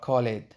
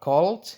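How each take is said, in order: First: The word ends with an extra id syllable. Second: The word ends with a d sound. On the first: The speaker calls it wrong. "Is it t or d or id?" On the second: The speaker calls it right. "Is it t or d or id?"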